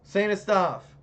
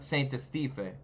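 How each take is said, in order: First: The word ends on the f, no vowel after. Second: A vowel is sounded after the final f. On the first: The speaker calls it right. "I did it!" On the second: The speaker calls it wrong. "So do you not pronounce the e?"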